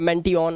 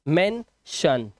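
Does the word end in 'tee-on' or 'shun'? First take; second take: tee-on; shun. First: The word ends with separate 'tee-on' sounds. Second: The word ends with a single 'shun' sound. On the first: The speaker calls it wrong. "अब इसे ऐसे नहीं पढ़ेंगे" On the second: The speaker calls it right. "शन की आवाज निकाल रहे हैं"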